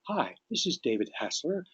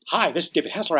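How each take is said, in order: First: It is said at a slow pace. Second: It is said at a fast pace. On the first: The caller matches the listener's pace. The speaker calls it right. "equal their pace" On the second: The caller does not match the listener's pace. The speaker calls it wrong. "your pace is different"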